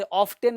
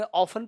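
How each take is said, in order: First: ऑफ्टन with the T pronounced; T sounded. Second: ऑफन with no T after the F; silent T. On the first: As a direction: say ऑफ्टन as spelt, with a T after the F. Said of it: "सॉफ्टन में टी नहीं पढ़ते". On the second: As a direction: model ऑफन, going from F straight to N. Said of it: "ऑफ्टन में ऑफन पढ़ते हैं". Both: Shown as a demonstration.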